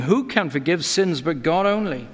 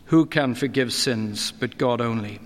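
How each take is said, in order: First: Voicing the scribes' indignant challenge; a mild hint of scribal outrage; indignant scribes' question. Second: Same question, lower and pondering; the preacher weighing the scribes' words, lower; lower reflective repeat. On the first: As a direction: ask it as the doubting scribes would. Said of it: "the scribes sit there questioning in their hearts". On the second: Shown as a demonstration. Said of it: "questioning his divine standing".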